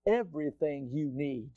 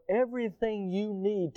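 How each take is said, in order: First: "Everything you need" set apart, lower and softer; emphatic repeat. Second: Said in the usual way. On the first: Real, not acted. Preacher repeating God's supply to congregation, emphatic. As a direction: land "Everything you need" deliberately, dropping the voice. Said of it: "I'm gonna emphasize that again". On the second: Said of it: "emphasize that again".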